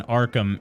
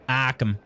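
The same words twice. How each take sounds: First: Said in the usual way. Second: "Arkham" in Boston style, r dropped; r-less Boston pronunciation; Boston accent. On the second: Shown as a demonstration. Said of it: "Did someone say Boston accent?".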